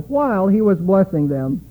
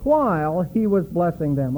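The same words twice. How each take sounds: First: The phrase is read with strong added emphasis. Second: The phrase is read plainly without extra emphasis.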